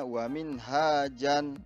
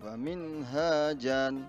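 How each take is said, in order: No difference in how they are said.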